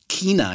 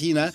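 First: It is said with a southern German pronunciation. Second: It is said with a standard German pronunciation. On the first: This is how people in southern Germany say it. "sie sagt China, ja? Das ist der süddeutsche Raum" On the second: This is the usual standard German way. "und nicht China"

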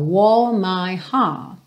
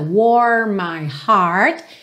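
First: The R sounds are dropped and the vowels lengthened. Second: The R sounds are curled and clearly pronounced. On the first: "no inglês britânico, soa mais como aquele prolongamento da vogal" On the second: "no inglês americano, a gente teria bastante língua enrolada"

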